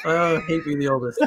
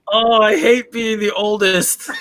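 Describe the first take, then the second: First: Said in the usual way. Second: Mock whine. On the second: Mock whining about being oldest.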